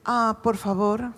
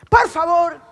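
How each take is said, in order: First: It is said in a kind tone. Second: It is said in an angry tone.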